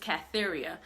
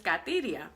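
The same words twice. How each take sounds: First: The name is pronounced with English sounds. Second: The name is pronounced with Spanish sounds.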